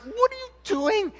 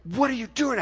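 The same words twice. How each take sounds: First: Much higher, alarmed shout "What are you doing?"; startled mad yell. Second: Stern "What are you doing?", higher, controlled; firm mad question. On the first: Dad catching his son spraying the neighbor kids, alarmed. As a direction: catch a kid mid-mischief. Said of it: "And I was pretty mad". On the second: Dad confronting his son over the weed killer, stern. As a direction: confront him face to face. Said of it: "I was so mad". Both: Retold or imitated.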